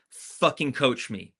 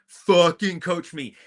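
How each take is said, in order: First: Slow and firm, stress on "Fucking"; firm demand. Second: Shouted demand. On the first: Telling parents to act like coaches, slow firm demand. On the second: Demanding parents coach her hard, slow raised shout. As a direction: repeat "Fucking coach me" higher, louder and slow. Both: Retold or imitated. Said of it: "And I said".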